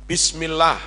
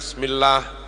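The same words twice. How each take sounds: First: The opening b is pronounced clearly. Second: The opening b is blurred and faint. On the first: The speaker calls it right. "Harusnya jelas semua" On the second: The speaker calls it wrong. "bukan hanya"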